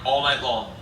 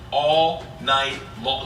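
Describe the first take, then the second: First: Said in the usual way. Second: Very slow "All night long"; "All night long" word by word, dragged out; drawn-out emphasis. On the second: Real, not acted. Repeats the phrase for emphasis.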